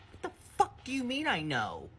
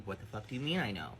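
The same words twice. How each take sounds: First: High, stunned, outraged demand; incredulous outburst. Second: Said in the usual way. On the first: Retold or imitated. To her friend on the phone, a high incredulous outburst. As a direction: fire it back at her in disbelief. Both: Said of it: "And I was like, literally".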